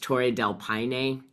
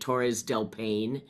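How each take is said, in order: First: The first word ends without an s sound. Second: The first word ends with an s sound. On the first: The speaker calls it right. "and it's" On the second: The speaker calls it wrong. "I was butchering too. I didn't say that properly"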